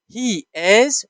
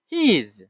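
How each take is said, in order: First: HE and IS as two separate words; full form. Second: "He is" merged into one syllable, he's; contraction. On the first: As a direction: say "He is" in full, IS clearly voiced. (شکل کامل، دو کلمهٔ جدا: He is) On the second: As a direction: run "He is" together as he's. (شکل اختصاری: He is مثل he's) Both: Shown as a demonstration. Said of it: "the full form and the contraction form".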